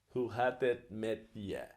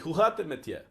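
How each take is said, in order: First: The phrase is said slowly. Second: The phrase is said fast.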